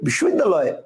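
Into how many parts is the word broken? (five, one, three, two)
one. The word is said in one unbroken part. "একবারেই বলবে ... কয়টা হলো একটা"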